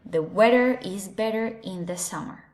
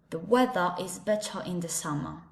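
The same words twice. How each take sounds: First: It is said in an American English accent. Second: It is said in a British English accent. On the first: "In American English" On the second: "And with the British English"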